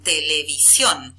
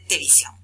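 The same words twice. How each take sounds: First: Both opening syllables te and le are pronounced. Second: One of the two opening syllables is dropped. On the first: "que tiene dos sílabas al principio, tele" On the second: "se come una de esas dos sílabas"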